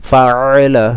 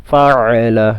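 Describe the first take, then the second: Both takes have the same delivery.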